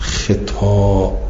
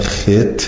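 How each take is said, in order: First: The second vowel is drawn out long. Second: The second vowel is kept short. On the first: "به کسر خا و ممدود" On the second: "به کسر خا من غیر مد"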